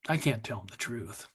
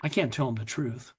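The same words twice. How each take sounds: First: Softer, lower echo. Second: Said in the usual way. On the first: Real, not acted. Admitting to the audience he hid the truth from his daughters, softer. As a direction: repeat it lower and softer, almost to yourself. Confessing hidden vodka to daughters.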